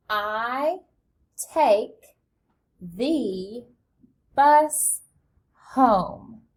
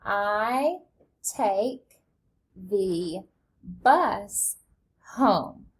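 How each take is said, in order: First: Slow, each word set apart with pauses; teacher modelling a sentence slowly; word-by-word model reading. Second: Reading along slowly, word by word; choral read-along. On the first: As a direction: read it out one word at a time for kids to follow. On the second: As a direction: read it together with the children, steady and even. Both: Shown as a demonstration. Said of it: "Read that with me".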